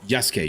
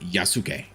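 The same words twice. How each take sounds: First: The middle 'su' syllable is nearly dropped. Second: Every syllable, including 'su', is fully pronounced. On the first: The speaker calls it right. "You're supposed to say it Yasuke. ... you sort of like run over the su part" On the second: The speaker calls it wrong. "You're not supposed to say Yasuke. Yasuke is only if you're like really pronouncing like every single individual ... syllable"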